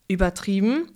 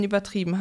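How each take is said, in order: First: "Übertrieben" with a rising question tune; questioning echo. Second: Said in the usual way. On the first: A narrator's reading. Nikolaus taking issue with the children, "Übertrieben" as rising echo question. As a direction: echo "Übertrieben" back as a doubting question, ending upward. Old man echoes the child's word.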